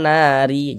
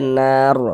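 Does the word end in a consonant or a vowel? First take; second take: vowel; consonant. First: The word ends with a short i vowel. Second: The word ends on a bare r sound. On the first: The speaker calls it wrong. "jangan dibaca nari, jangan kayak gitu" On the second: The speaker calls it right. "tapi dibaca nar begitu"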